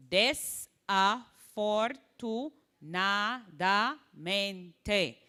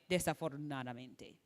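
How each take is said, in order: First: Very slow, each syllable held separately. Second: Said in the usual way. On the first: Shown as a demonstration. Teacher showing students how to slow down long words, syllable by syllable. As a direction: desafortunadamente broken into des-a-for-tu-na-da-men-te. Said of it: "syllable by syllable". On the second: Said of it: "Before you can say".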